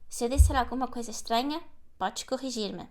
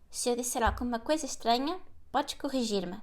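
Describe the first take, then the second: No difference in how they are said.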